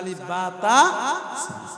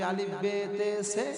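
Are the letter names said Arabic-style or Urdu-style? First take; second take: Arabic-style; Urdu-style. First: The letter names use a vowels, Arabic-style. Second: The letter names use e vowels, Urdu-style. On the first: This is the current way. "এখন হচ্ছে" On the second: This is the older way learned in childhood. "ওগুলো হয়ে গেছে উর্দু"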